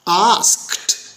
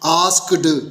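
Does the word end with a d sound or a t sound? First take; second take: t sound; d sound. First: The word ends with a t sound. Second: The word ends with a d sound. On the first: The speaker calls it right. "देखा आखिरी sound क्या हुई, ट type की" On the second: The speaker calls it wrong. "आपने डी की आवाज़ निकालने की कोशिश की और ये गलत तलफ़ुज़ हो गया"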